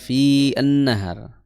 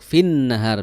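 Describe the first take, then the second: First: A separate 'an' syllable is heard. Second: The n runs straight in, doubled. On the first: The speaker calls it wrong. "bukan fi an nahar" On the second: The speaker calls it right. "Jadi langsung masuk fin nahar"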